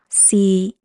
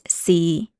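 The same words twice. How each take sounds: First: The syllable is said in tone three. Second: The syllable is said in tone six. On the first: "Tone three is C" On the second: "Tone six is C"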